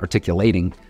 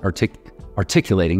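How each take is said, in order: First: The word is said with its usual stress. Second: The word is said with an odd stress. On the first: The speaker calls it right. "not articulating" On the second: The speaker calls it wrong. "I just put a weird emphasis on articulating"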